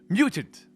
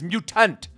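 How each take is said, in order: First: The middle T is barely heard. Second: The middle T is said strongly. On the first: The speaker calls it wrong. "that doesn't sound like I'm saying the T" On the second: The speaker calls it right. "You got to say the T strongly"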